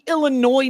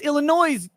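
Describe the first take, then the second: First: The word ends without an S sound. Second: The word ends with an added S sound. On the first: The speaker calls it wrong. "It wouldn't be" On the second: The speaker calls it right. "the possessive of Illinois doesn't have an S sound at the end"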